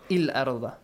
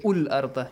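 First: The word begins with an i vowel. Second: The word begins with a u vowel.

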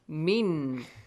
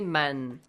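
First: The vowel is an 'i' sound. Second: The vowel is an 'a' sound. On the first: The speaker calls it right. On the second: The speaker calls it wrong.

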